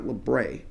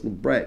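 First: The word is said with a French-sounding pronunciation. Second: The word is said with a non-French pronunciation. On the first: The speaker calls it wrong. "not librette. ... It's not a French word" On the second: The speaker calls it right. "I know it's librette"

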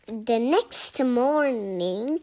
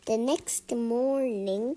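First: It is said loudly. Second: It is said softly.

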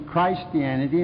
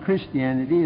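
First: The first syllable sounds like 'Christ'. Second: The first syllable sounds like 'Kris'. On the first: The speaker calls it right. "It ought to be" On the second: The speaker calls it wrong. "the wrong pronunciation"

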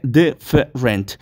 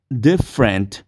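First: The word is said with three syllables. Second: The word is said with two syllables. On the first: The speaker calls it wrong. "No se dice different, no hay tres sílabas" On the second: The speaker calls it right. "sino que únicamente dos"

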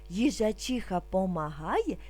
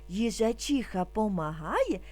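Both takes have the same delivery.

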